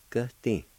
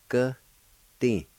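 First: Said in the usual way. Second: "Gati" split in two, higher, with a falling end; syllable-by-syllable pronunciation. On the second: Shown as a demonstration. Teacher showing the last part, split into syllables. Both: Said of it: "Last part".

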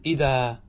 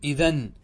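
First: إذا ending in a long open aa, no n; pausal form idha. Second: إذن ending in a sounded n; unpaused form idhan. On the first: Teacher shows students the pause on idhan, long aa. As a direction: draw out the final alif of إذا. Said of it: "فكذلك إذن قل". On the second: Teacher asks students how to pause on it, idhan with n. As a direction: say إذن with its final nun. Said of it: "إذا وقفت على إذن". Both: Shown as a demonstration.

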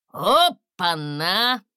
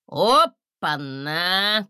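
First: Slow, drawn-out gasp rising at the end; an astonished dragon gasping; gasping in surprise. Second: Slow, drawn-out surprised exclamation; an astonished dragon drawing it out. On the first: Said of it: "охнули в тумане". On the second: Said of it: "В тумане удивились". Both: A narrator's reading.

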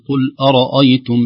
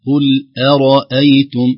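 First: Loud أرأيتم with the hamzas thickened like the ra; wrong heavy hamza. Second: Loud أرأيتم with thin hamzas and a full ra; light hamza, heavy ra. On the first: Teacher showing the mistake to avoid, heavy hamza. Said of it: "فلا ينبغي أن تؤثر". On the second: Teacher correcting the recitation, light hamza. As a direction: say أرأيتم, thinning each hamza, thickening only the ra. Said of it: "ترقيق الهمزة، تفخيم الراء". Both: Shown as a demonstration.

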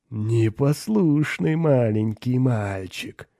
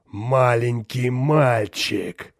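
First: Slow, cooing demon voice; demon baby-talk. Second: Very slow, booming demon voice; thunderous demon. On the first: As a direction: lisp it mockingly like baby-talk, drawn out. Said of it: "просюсюкал Борбас". (демонически сюсюкая) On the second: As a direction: boom it out, drawing every word long. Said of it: "вскричал демон громовым голосом". (громовым голосом демона) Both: A narrator's reading.

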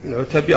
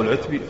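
First: First العتبي as "al-'utabi", with a vowel after the t; alternative vowelling. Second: Second العتبي as "al-'utbi", no vowel after the t; alternative vowelling. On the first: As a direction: say العتبي in three syllables, "'u-ta-bi". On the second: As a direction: say العتبي in two syllables, "'ut-bi". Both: Shown as a demonstration. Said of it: "أو العتبي".

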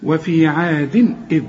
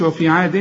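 First: عاد إذ with short clear "din" before the hamza; no nasal hold. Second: عاد ending "din" with a long hummed n; wrong nasal hold. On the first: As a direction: link عاد to إذ without humming the n. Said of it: "تنوين وبعده همزة ما تغنش". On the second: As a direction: demonstrate the mistake, humming after عاد. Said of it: "ما تقولش". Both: Shown as a demonstration.

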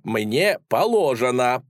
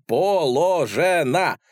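First: "мне положено" drawn out slowly; slow insistence. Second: "положено" split into slow, separate, raised syllables; syllable-by-syllable emphasis. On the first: Lad explains his rights to police, slowly insisting on "положено". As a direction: stretch out "положено" as one word. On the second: Lad insists to police, "положено" emphatically syllable by syllable. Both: A narrator's reading.

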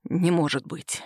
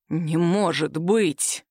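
First: Low, subdued disbelief; narrated stunned murmur, pitched down; hoarse disbelief. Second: Very slow, low, stunned delivery; long-drawn low exclamation of shock; drawn-out disbelief. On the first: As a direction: say it low, under the breath, stunned. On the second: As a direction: stretch every word out in disbelief. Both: A narrator's reading. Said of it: "протянул хриплым голосом".

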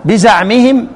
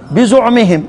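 First: "بزعمهم" with an a after the z: biza'mihim; fatha on zay. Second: "بزعمهم" with a u after the z: bizu'mihim; damma on zay. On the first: ("بزعمهم" بفتح الزاي) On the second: ("بزعمهم" بضم الزاي) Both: Shown as a demonstration. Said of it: "هما لغتان".

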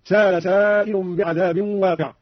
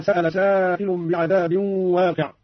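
First: سأل said sala with a long a, no glottal stop; no hamza. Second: Said in the usual way. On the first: Shown as a demonstration. Teacher demonstrates Qalun's reading without hamza. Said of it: "هكذا". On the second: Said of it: "قرأ قالون بدون همز".

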